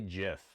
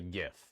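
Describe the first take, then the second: First: The word starts with a soft J sound. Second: The word starts with a hard G sound. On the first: The speaker calls it wrong. "I don't say GIF because I have self-respect" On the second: The speaker calls it right. "like graphics"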